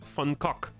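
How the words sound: It starts with an f and has guttural sounds. "If if you listen to someone say it in Dutch, which he was Dutch, the way that you say it is Funcock"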